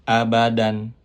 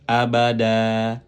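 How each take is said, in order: First: The word ends with a short vowel plus n. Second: The word ends with a lengthened a vowel. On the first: The reading continues without a stop. "abadan fathatain" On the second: The reader stops on this word. "dibaca menjadi fathah diikuti alif ... dipanjangkan dua harokat"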